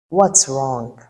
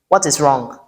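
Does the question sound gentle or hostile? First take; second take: gentle; hostile. First: It is asked softly in a lowered, gentle tone. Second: It is asked in a harsh, confrontational tone. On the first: It invites the partner to share their heart. The speaker calls it right. "the way I lowered my tone before s- asking the question" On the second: It provokes conflict instead of peace. The speaker calls it wrong. "communicates antagonism instead of peace"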